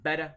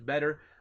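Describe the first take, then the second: First: The word ends with an 'ah' sound. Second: The word ends with an 'er' sound. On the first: "in Boston you hear beta... the ah instead of the er" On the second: "instead of better"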